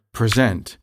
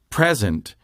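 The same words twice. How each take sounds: First: "present" as a verb, preSENT; "present" with a light first syllable and stressed ending; stress on last syllable. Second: "present" as a noun, PREsent; "present" with a stressed start and light ending; stress on first syllable. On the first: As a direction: put the weight on the second syllable of "present". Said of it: "say the last syllable with more emphasis". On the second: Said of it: "next to the last syllable is stressed". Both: Shown as a demonstration.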